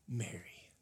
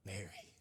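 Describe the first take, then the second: First: Whispered, tender name; Jesus gently calling Mary's name; sweet gentle Jesus. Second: Even softer, barely there; soft echo. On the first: Acted. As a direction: breathe her name softly. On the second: Shown as a demonstration. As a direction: let the name fall away quietly. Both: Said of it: "such sweet gentleness in his voice".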